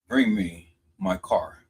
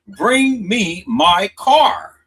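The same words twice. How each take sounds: First: Said in the usual way. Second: Loud and slow, leaning hard on Bring me my car; emphatic loud quote. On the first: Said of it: "Her exact words". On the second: Shown as a demonstration. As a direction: slam out the exact words as proof. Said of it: "her exact words was".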